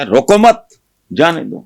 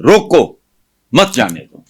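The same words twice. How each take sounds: First: "روکو مت" joined, high and loud, break, then "جانے دو"; pause after مت. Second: Forceful "روکو", a clear break, then "مت جانے دو"; pause after روکو. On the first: Host shows viewers the opposite meaning, breaking after مت. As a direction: lift مت sharply, stop, then release "جانے دو". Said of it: "دوسرا مطلب ہے". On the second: Host shows viewers the first meaning, breaking after روکو. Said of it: "اس کے دو مطلب ہیں". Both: Shown as a demonstration.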